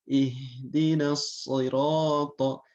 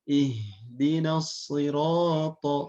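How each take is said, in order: The two takes are said the same way.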